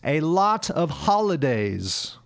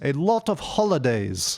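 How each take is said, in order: First: The vowel in 'lot' sounds like 'ah'. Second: The vowel in 'lot' sounds like 'oh'. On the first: The speaker calls it right. "It should be a lot of holidays" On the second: The speaker calls it wrong. "So she said a lot of holidays"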